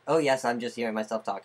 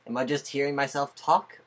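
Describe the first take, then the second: First: Quick statement led by "Oh yes"; answering oneself. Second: Rising question on "talk". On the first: Speaker answering their own question, quick assured statement from "Oh yes". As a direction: rattle it off as the answer, "Oh yes" leading. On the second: Speaker asking themselves while testing sound, questioning rise on "talk". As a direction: ask it with "talk" lifting at the end. Asks self, then answers self. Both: Pretend.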